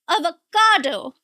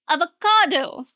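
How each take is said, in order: Both takes have the same delivery.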